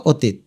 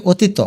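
First: Said in the usual way. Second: অতীত as o-tee-to; without hasanta. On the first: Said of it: "হসন্ত দেওয়াতে উচ্চারণ হলো". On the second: Shown as a demonstration. Teacher showing a missing hasanta, অতীত said o-tee-to. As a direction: add a final o to অতীত. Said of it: "তয়ের নিচে হসন্ত না দিলে".

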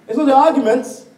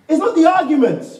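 First: Arguments louder with a falling end; preaching hard on arguments; stress on arguments. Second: Not higher and louder with a fall; preaching hard on not; stress on not. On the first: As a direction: hit the word arguments. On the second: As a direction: punch the word not hard. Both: Shown as a demonstration.

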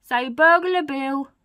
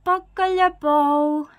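First: Slow, loud, raised prompt; coaching a baby. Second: Put-on high, very slow baby babble. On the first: Acted. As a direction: say it slowly for a baby to copy. Burglar coaches baby to talk. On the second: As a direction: draw it out loudly like a baby learning to talk. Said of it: "says the baby".

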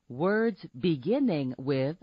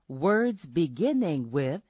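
No difference in how they are said.

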